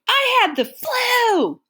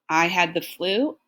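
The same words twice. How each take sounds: First: It is said excitedly, as an exclamation. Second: It is said flatly, as a plain statement.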